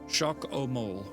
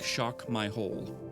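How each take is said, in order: First: The name ends sounding like 'o mole'. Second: The name ends sounding like 'my hole'. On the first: The speaker calls it right. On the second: The speaker calls it wrong. "when I say it in my head, sounds like shock my hole. I know that that's not how it's pronounced"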